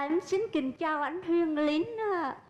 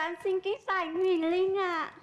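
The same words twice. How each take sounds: First: It is spoken in a Hue accent. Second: It is spoken in a Northern Vietnamese accent.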